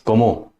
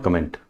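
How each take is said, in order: First: "como" as French comment, ko-MO; French pronunciation. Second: "comment" said like the English word; English misreading. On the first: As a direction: say "como" with a nasal last vowel and silent t. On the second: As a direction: say "comment" with the n and t both sounded. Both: Shown as a demonstration. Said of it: "not comment".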